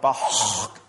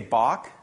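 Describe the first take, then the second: First: The word ends in a throaty guttural sound. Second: The word ends in a plain hard k sound. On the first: "if you pronounced it with the guttural properly" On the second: "we would say Bach"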